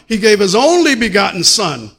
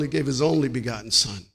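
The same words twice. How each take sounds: First: Loud preached line, stress on only; shouted preaching. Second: Said in the usual way. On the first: Acted. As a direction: hammer it home to the church. Preaching climax vs calm repeat.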